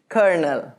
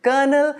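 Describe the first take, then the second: First: Colonel as KUR-nul with a clear R; American pronunciation. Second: Colonel as KUH-nul, no R sounded; British pronunciation. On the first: Teacher comparing with British, American pronunciation. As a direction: sound an R in colonel, American style. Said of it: "in American English". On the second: Teacher comparing with American, British pronunciation. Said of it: "this is in British English". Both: Shown as a demonstration.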